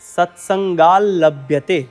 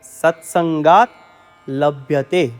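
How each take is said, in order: First: The t merges into a doubled l sound. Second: A t sound is heard before a single l. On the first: The two words are joined into one. "ભેગો થઈને ... વચ્ચે double લ આવે છે" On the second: The two words are kept separate. "બે શબ્દો ભેગા છે"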